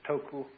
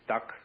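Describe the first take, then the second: First: It is said with two syllables, ending in a vowel. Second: It is said as one syllable ending in k. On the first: This is the Japanese reading of the word. "the Japanese pronounce it toku" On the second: This is the Cantonese reading of the word. "the Cantonese dak"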